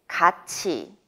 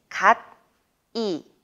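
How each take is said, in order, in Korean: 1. 가운데 자음은 ch 소리가 나요. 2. 가운데 자음은 t 소리가 나요. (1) "읽을 때는 같이 라고 읽어야 합니다" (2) "쓸 때는 갓이 라고 쓰지만"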